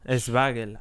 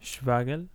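First: The name starts with an added e vowel. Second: The name starts directly with the sh sound. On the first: "I like to say Eswagel" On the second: "It's pronounced Schwagel"

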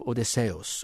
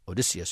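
First: The name is said in a Greek-style pronunciation. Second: The name is said in the usual American pronunciation.

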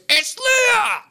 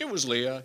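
First: It is exclaimed with shocked surprise. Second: It is said calmly, as a plain statement.

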